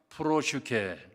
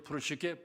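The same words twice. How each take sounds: First: The word is said at a normal, careful pace. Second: The word is said quickly, running the sounds together.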